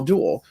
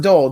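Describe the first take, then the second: First: "dual" said as two syllables, "du-al"; corrected word. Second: "dull" said as the rejected word, one short vowel like "doll"; wrong word. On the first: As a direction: draw out "dual" as "du-al" to set it apart. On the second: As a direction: say "dull" short, then correct it. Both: Shown as a demonstration. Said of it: "not dull".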